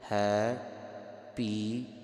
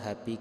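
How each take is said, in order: First: The phrase is said with a separate bh sound. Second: The phrase runs together with a plain p sound. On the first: The speaker calls it right. "ਸੋ ਉੱਦਾਂ ਨਹੀਂ ਕਰਨਾ" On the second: The speaker calls it wrong. "ਜ਼ਿਆਦਾਤਰ ਆਪਾਂ ਹੈਪੀ ਕਰ ਦਿੰਨੇ ਹਾਂ"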